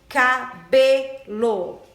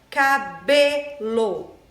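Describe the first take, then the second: The two takes are said the same way.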